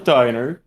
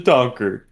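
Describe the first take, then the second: First: The word is said like "diner". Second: The word is said like "donker". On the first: The speaker calls it wrong. "this isn't a bakery, you're right, but it's also not a diner" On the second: The speaker calls it right. "It's a donker. I think we should get that right"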